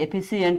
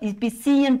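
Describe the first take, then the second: First: The first vowel is a short 'eh' sound. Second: The first vowel is a long 'ee' sound. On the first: The speaker calls it right. "एफिशियंट आहे असा उच्चार आहे" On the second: The speaker calls it wrong. "याचं इफिशियंट असं नाही"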